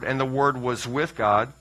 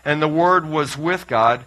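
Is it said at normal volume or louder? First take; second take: normal; louder. First: It is said at normal volume. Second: It is said noticeably louder.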